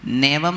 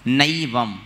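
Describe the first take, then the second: First: नैवम said as "nevam", with plain e; wrong e vowel. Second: नैवम as "naivam", full diphthong; big ai vowel. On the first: Teacher shows the wrong reading, नैवम as "nevam". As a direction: shrink the first vowel of नैवम to "ne". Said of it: "नैवम नहीं पढ़ना". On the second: Teacher corrects pupils, नैवम with a full "ai". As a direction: give नैवम a wide "ai" at the start. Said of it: "बड़ी ऐ है ना". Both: Shown as a demonstration.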